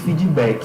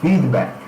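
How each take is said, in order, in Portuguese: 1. Um som de vogal extra é acrescentado no final. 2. A palavra termina de forma seca, na consoante final. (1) "O brasileiro tem esse hábito, viu? De colocar aí no final das palavras em inglês" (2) "a forma correta de pronunciar é feedback"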